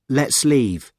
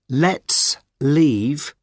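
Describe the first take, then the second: First: The two words run together like one word. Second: The two words are said separately.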